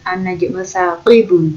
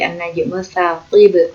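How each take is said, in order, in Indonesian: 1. Kata terakhir berakhir dengan vokal tambahan di akhir. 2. Kata terakhir berhenti pada konsonan mati. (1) "Ini bukan an-najmu saqibu" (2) "tapi an-najmu saqib"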